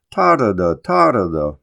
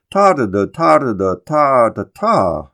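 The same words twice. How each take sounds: First: "ta-da-da" with the first "ta" stressed, the two "da"s falling away; stress on first syllable. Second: "ta-da-da, ta-da-da, ta-da-ta" galloping, then slowing onto a stressed last "ta"; stress on final syllable too. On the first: Lecturer showing Longfellow's three-syllable foot, "ta-da-da" stressed on "ta". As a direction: chant "ta-da-da" in falling threes, hitting "ta". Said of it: "with the stress on the first syllable".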